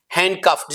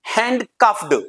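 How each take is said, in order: First: "हैंडकफ्ड" ending on a crisp t, handcufft; right pronunciation. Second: "हैंडकफ्ड" ending on a d sound; wrong pronunciation. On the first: Teacher showing the correct "हैंडकफ्ड" ending in t. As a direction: close "हैंडकफ्ड" with a sharp t. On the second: Teacher showing the common mistake, "हैंडकफ्ड" with d. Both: Shown as a demonstration. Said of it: "ईडी आया".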